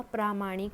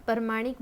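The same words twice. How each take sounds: First: प्रामाणिक with a long प्रा; correct form. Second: प्रमाणिक with a short प्र; प्रमाणिक said the way people wrongly say it; common wrong form. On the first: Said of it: "लेकिन शुद्ध शब्द होगा प्रामाणिक". (सही उच्चारण प्रामाणिक, लंबा प्रा) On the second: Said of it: "प्रमाणिक बोलते हैं". (गलत उच्चारण प्रमाणिक, छोटा प्र) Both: Shown as a demonstration.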